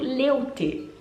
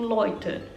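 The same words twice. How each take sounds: First: The vowel sounds like 'eh-oo'. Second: The vowel sounds like 'oy'. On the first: This is how it is written. "é escrito" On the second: This is how it is actually said. "se fala tipo"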